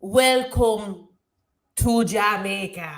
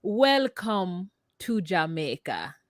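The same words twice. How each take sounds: First: Halting, word-by-word stab at Jamaican; attempted Jamaican accent. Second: Slow, careful Jamaican accent demo. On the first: Repeating after co-host, halting attempted Jamaican accent. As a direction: try Jamaican slowly, breaking after the first word. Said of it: "cannot do a Jamaican accent". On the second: Correcting co-host's failed try, slow Jamaican accent. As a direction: model the Jamaican lilt slowly. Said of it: "Can you say, like". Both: Shown as a demonstration.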